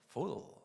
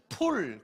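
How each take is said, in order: First: It is said with an English f and l. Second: It is said with a plain Korean p sound. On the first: The word sounds like a native speaker's. The speaker calls it right. "이 발음을 한 거예요" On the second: The meaning of the word is unclear. The speaker calls it wrong. "풀 그러면 이게 바르는 풀인지 뭔 풀인지 잘 몰라요"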